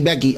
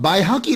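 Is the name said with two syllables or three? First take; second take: two; three. First: The name is shortened to two syllables, Baiki. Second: The name has three syllables, Bai-ha-qi. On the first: This is the everyday form people have adopted. "हम अक्सर लोग बैकी बोलते हैं" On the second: This is the original form of the name. "तो जब कभी आप असल भी सुन लीजिए"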